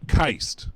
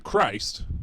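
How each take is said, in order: First: The word is said without the R sound. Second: The word is said with a clear R sound.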